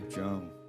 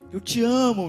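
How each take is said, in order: First: It is said in a quick, dry way. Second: It is said in a sweet, syrupy way.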